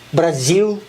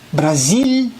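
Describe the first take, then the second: First: The final L sounds like a U vowel. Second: The final L is a clear lateral consonant. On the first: The speaker calls it wrong. "mai dir" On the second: The speaker calls it right. "si dice sempre così"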